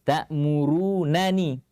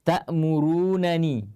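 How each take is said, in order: No difference in how they are said.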